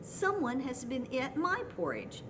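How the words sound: It is said in a middle-sized, medium voice.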